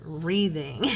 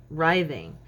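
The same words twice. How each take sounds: First: Wreathing said with a long E, like wreath; old wrong way. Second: Writhing with a long I, like writhe; correct writhing. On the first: To viewers, owning her childhood wrong word: wreathing. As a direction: say wreathing, ree-thing, with the E of wreath. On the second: Telling viewers what her daughter taught: writhing. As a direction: say writhing with the rhyme of ride. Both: Shown as a demonstration. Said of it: "I always pronounced it wreathing".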